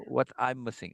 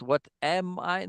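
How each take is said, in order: First: "What I'm missing" run together as one short phrase; Bina's phrasing. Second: Said in the usual way. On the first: Shown as a demonstration. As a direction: slide "I'm" straight into "missing".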